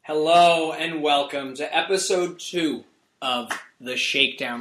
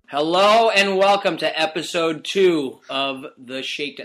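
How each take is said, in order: First: It is said more quietly. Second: It is said too loudly.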